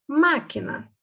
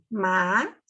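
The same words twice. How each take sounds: First: Said in the usual way. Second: Long pauses between the syllables of "Máquina"; split syllables. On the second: Shown as a demonstration. Teacher counting syllables for pupils, "Máquina" split in three. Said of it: "Três sílabas".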